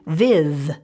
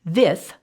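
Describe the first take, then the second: First: The th sound is voiced. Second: The th sound is unvoiced. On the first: "with that th making the voiced sound" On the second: "th sound is unvoiced"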